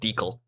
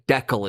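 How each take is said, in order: First: It uses a non-Canadian pronunciation of the word. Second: It uses the Canadian pronunciation of the word. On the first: "instead of" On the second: "how we say"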